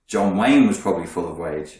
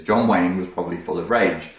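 First: "rage" slipped into "wage", W for R. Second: "rage" said with a proper R, not W; corrected R. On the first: Coach fumbles a line about John Wayne, "rage" coming out as "wage". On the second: Coach corrects his John Wayne line, "rage" with a clear R. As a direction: repeat it with a clear R starting "rage". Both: Real, not acted. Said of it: "wage? Full of rage? He got good wages".

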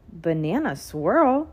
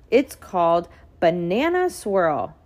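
First: Slow, puzzled rising question. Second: Said in the usual way. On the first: A narrator's reading. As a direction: ask it like it's a strange new word. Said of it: "asked Daniel". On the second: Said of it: "said Mom".

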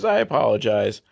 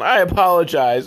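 First: Said in the usual way. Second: "I apologize" louder, pushed up high; theatrical "I apologize", loud and lifted; emphatic apology. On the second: Real, not acted. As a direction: overdo "I apologize" like a hammed-up sorry. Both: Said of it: "oh, sorry".

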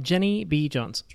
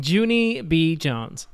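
First: "Jenny" said with a short e as in "pen"; mispronounced name. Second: "Junie" with a long oo, as in "June"; corrected name. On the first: Real, not acted. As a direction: say "Jenny" with an eh vowel in place of oo. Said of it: "did I say it wrong". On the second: Shown as a demonstration. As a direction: repeat the correction, saying "Junie" as JOO-nee. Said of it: "if I said that wrong".

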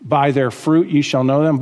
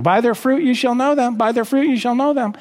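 First: Said in the usual way. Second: Higher, sing-song mock quote, speeding up on the repeat; mocking imitation of a verse-slinger, pitched up; mocking misuse. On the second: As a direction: parody people who fling the verse around out of context. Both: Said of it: "when people love to use that out of context".

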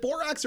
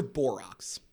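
First: Borax ending like "axe"; first pronunciation option. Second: Borax ending like "ox"; second pronunciation option. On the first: Host asks co-hosts how borax is said, borax rhyming with "tracks". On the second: Host offers the other way to say borax, ending in "-ox". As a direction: say borax with an open "ah", as in "Clorox". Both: Shown as a demonstration. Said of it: "Is it borax or borax?".

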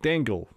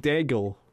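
First: "Dangle" said with an ng, as DANG-gul; tentative "Dangle", rhyming with "tangle"; unsure pronunciation. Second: "Dangle" said without the n, as DAG-ul; tentative "Dangle", first syllable like "dag"; unsure pronunciation. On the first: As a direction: try "Dangle" with a nasal n before the g. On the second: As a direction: try "Dangle" with a hard g and no n. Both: Real, not acted. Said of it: "However you say her name".

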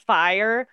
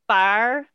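First: Said in the usual way. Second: "fire" in a Southern accent, as "far"; Southern drawl on "fire", sounding like "far". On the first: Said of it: "like, pronouncing". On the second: Shown as a demonstration. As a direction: flatten "fire" into one Southern syllable, "far". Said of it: "a Southern accent and, like, pronouncing".

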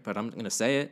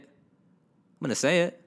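First: Said in the usual way. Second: Higher, louder, slower insistence on "say"; emphatic declaration. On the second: Real, not acted. Telling the listener he'll share anyway, emphatic. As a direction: lean into "say" and stretch it out.

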